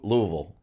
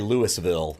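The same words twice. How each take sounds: First: The name is squeezed into about two syllables. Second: The name is said with three full syllables. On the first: This is how locals say it. The speaker calls it right. "It's almost yeah, two syllables" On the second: This is how outsiders say it. The speaker calls it wrong. "they don't say Louisville"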